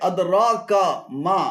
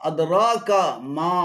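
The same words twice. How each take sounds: No difference in how they are said.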